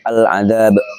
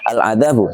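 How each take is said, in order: First: The word ends on a consonant, vowel dropped. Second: The word ends with a short vowel. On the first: "jika diwakafkan jadi al-adab" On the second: "Contohnya al-adabu"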